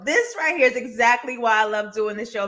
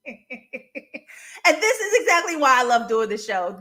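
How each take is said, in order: First: Said in the usual way. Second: Slow, through real laughter; laughing. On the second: Real, not acted. Host delighted by chat, laughing as she says it. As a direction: let the laugh carry the line.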